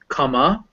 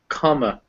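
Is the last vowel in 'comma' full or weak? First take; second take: full; weak. First: The last vowel is a full, clear vowel. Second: The last vowel is a weak, unstressed schwa. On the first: The speaker calls it wrong. "it's not actually pronounced comma" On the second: The speaker calls it right. "It's unstressed and it becomes this"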